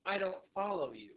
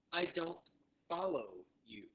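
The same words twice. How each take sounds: First: Said in the usual way. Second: Slower, with a pause after don't; deliberate repeat-after-me phrasing; slow teaching model. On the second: Shown as a demonstration. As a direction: break "I don't follow you" into separate words for learners. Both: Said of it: "So say that with me".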